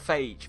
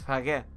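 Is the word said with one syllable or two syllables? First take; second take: one syllable; two syllables. First: The word is said as one syllable. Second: The word is said as two syllables. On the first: The speaker calls it wrong. "It's not phage, for the love of God" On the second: The speaker calls it right.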